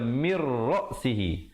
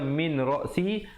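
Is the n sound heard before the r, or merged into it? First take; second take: merged; heard. First: The n merges into a doubled r sound. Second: The n sound is clearly heard before r. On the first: This is how it is recited in this context. "tapi di sini kita baca" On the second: This is the underlying form before assimilation.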